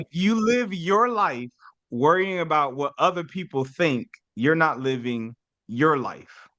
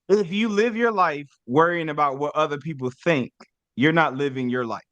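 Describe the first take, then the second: First: It is said slowly and deliberately. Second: It is said at a normal pace.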